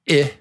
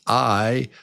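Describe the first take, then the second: First: The vowel sounds like the one in insect. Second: The vowel sounds like the one in kite. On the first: "The short vowel sound for I is I" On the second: "the long vowel sound is I"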